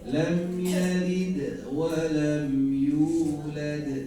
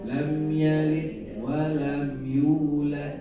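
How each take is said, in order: First: Both final d sounds bounce lightly and clearly. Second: Only the last final d bounces.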